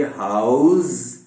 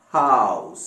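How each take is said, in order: First: हाउस ending in a buzzed Z, drawn out; wrong Z ending. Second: हाउस ending in a voiceless S, lower pitch; correct S ending. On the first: Teacher warning students off the mistake, हाउस with a Z. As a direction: say हाउस as "houzz". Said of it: "जेड के साथ नहीं है". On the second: Teacher correcting the Z, हाउस said with S. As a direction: finish हाउस on a clean "ss", not Z. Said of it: "सीन का sound आता है". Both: Shown as a demonstration.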